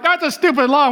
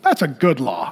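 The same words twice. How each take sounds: First: Put-on kid's complaint. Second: Parent's approval. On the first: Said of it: "when you're a kid, you're like". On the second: Retold or imitated. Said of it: "When you're a parent, you're like".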